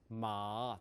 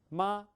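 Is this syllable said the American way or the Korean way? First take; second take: American; Korean. First: It is said with an American-style pitch. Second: It is said with a Korean-style pitch. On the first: "근데 미국 사람은 어때요?" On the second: "한국 사람 성조는 이거예요"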